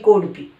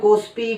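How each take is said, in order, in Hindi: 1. पहले अक्षर के बाद 'd' की आवाज़ है। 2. पहले अक्षर के बाद 's' की आवाज़ है। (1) "कुछ बच्चे कोड पी पढ़ते हैं इसको" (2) "एस सोच के स बोल देते हैं"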